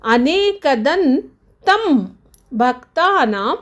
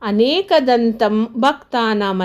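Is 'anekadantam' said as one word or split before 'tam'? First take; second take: split; one word. First: It has a break before the syllable 'tam'. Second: It runs together as one unbroken word. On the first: The speaker calls it right. "ಈ ರೀತಿಯಾಗಿ ನಾವು ಉಚ್ಚಾರಣೆಯನ್ನು ಮಾಡಬೇಕು" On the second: The speaker calls it wrong. "ಅಂತ ಹೇಳಬಾರ್ದು"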